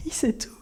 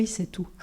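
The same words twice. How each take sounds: First: Whispered with a little laugh, full of awe; a hushed, awed repeat. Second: Said in the usual way. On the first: Shown as a demonstration. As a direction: breathe it as a secret wonder.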